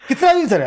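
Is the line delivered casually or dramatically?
casually. It is said in a casual, rustic chatty way.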